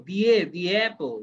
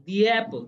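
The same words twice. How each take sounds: First: "the a, the apple" said slowly, the ending of "the" linked straight into "a"; bridged "the apple". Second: Said in the usual way. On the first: Shown as a demonstration. Teacher slowly showing the student how "the apple" links together. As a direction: stretch "the a" and glide it into "apple". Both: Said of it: "এ এবং ইটা একসাথে উচ্চারণ করতে হবে".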